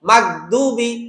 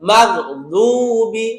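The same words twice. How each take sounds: First: The d is a plain, light d sound. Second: The d is heavy, made with the tongue's side. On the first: The speaker calls it wrong. "যদি বলেন দুবি দুবি তাহলে কি হয়ে যাবে? ডাল হয়ে যাবে।" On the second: The speaker calls it right. "বলতে হবে মাগদুবি, গু গু গু, জিহ্বার পাশ থেকে।"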